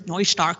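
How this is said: The name is said with a German pronunciation. "In German, it's Neustark, of course, with the nice K at the end"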